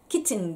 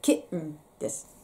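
First: The t sound is fully released as ch. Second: The t sound is swallowed in the throat. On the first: The speaker calls it wrong. "キッチンではなくて" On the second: The speaker calls it right. "うんって飲み込む感じです"

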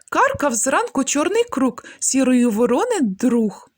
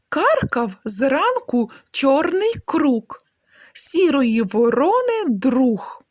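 First: It is said at the quickest pace. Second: It is said slowly and clearly. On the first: "Ще швидше" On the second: "Спочатку вимовляємо скоромовки повільно"

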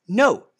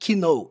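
First: The word begins with no K sound. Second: The word begins with an audible K sound. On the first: The speaker calls it right. "é know" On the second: The speaker calls it wrong. "o K é mudo, não é know"

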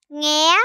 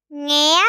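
The two takes are said the same way.

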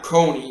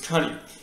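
First: The first vowel sounds like 'oh'. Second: The first vowel sounds like 'uh'. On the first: The speaker calls it wrong. "It's not coney" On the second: The speaker calls it right. "the proper way to pronounce it is cunny"

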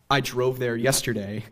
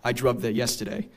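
First: The vowel is the general, widespread pronunciation. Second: The vowel is a centered, older New England sound. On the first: "instead of saying" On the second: "you might hear someone say"

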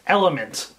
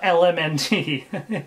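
First: It is said as one word, element. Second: It is spelled out letter by letter. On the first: The speaker calls it right. "my bad, LMNT" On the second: The speaker calls it wrong. "not LMNT. This is not the, TMNT"

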